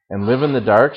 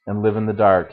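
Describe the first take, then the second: First: "dark" rising into a question; asking. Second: "dark" falling as a settled statement; replying. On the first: Woman questions the stranger's answer, asking with "dark" rising. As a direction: ask it, lifting the pitch on "dark". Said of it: "she asked". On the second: Stranger confirms it to the woman, replying with "dark" falling. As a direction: confirm it, letting "dark" drop. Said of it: "he replied". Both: A narrator's reading.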